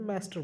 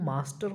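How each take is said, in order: First: The word is said with an American English accent. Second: The word is said with an Indian English accent. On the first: "American accent की बात करें तो वहाँ पे मास्टर बोलते हैं" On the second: "English accent की बात करें, इंडियन एक्सेंट की, तो मास्टर होता है"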